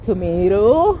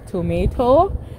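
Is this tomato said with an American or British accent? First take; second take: American; British. First: The middle t is a soft flap. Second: The middle t is a crisp t sound. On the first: "And you guys say tomato" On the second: "we say T like tomato"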